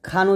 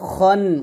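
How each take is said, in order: First: The vowel is an open 'a' sound. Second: The vowel is a rounded 'o' sound. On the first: The speaker calls it wrong. "এখানে আমরা খান উচ্চারণ করি। তো খান উচ্চারণ করা যাবে না" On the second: The speaker calls it right. "বলতে হবে খন"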